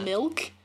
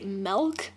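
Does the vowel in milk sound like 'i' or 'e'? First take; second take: i; e. First: The vowel sounds like 'i', as in milk. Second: The vowel sounds like 'e', as in melk. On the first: The speaker calls it right. "instead of milk" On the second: The speaker calls it wrong. "like M-E-L-K"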